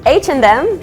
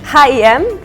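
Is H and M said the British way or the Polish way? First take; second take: Polish; Polish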